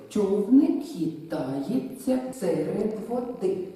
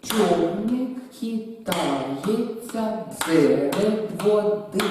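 First: Slow verse in threes; slow, measured reading of «Човник хитається серед води»; rhythmic recitation. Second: Very slow and loud, «Човник» punched on the downbeat; «Човник хитається серед води» spoken very slowly and loud, one strong beat and two weak; clapped beats. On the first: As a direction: recite it so the strong beats stand out. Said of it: "одна з наголосом і дві слабі". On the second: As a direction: chant it in threes while clapping. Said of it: "Я плескаю". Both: Shown as a demonstration.

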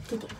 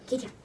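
The two takes are said the same way.

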